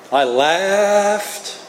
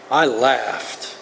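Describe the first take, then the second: First: "laughed" stretched long and rising high; drawn-out LAUGHED. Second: Said in the usual way. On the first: Real, not acted. Comic recalling his first pot night, "laughed" stretched long and high. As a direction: hold "laughed" in one long, climbing sweep. Stresses how much he laughed.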